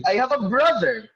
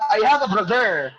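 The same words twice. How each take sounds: First: "brother" as BRO-ther, first syllable punched; stress on first syllable. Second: "brother" said as bro-THER, stress misplaced; wrong second-syllable stress. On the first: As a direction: model "brother" with the stress up front. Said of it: "So the stress is on". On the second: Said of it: "You don't also say". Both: Shown as a demonstration.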